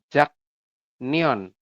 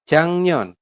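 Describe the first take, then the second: First: The first syllable ends with a k sound. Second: The first syllable ends with an ng sound. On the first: The speaker calls it wrong. "Secara tulisan ini bacanya adalah Jaknion" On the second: The speaker calls it right. "Tapi berubah menjadi gimana ya Rebun? Menjadi Jang"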